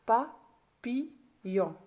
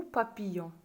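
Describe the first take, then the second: First: PAPILLON very slowly, in three separate beats pa, pi, yon; split into syllables. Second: Said in the usual way. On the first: Shown as a demonstration. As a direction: say "papillon" syllable by syllable with clear pauses. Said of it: "J'ai séparé le mot en syllabes". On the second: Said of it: "séparer les mots en syllabes".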